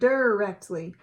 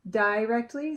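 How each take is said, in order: First: The first syllable sounds like 'der'. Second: The first syllable sounds like 'die'. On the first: "I R er" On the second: "looking at the I blank E"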